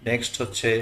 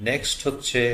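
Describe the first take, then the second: Both takes have the same delivery.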